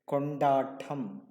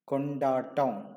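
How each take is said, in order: The two takes are said the same way.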